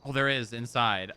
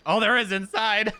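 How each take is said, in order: First: Said in the usual way. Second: High and loud, laughing; laughing repeat. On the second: Real, not acted.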